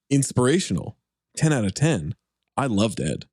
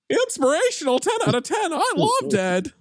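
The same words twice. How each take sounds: First: It is read in a plain, natural voice. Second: It is read in a put-on character voice.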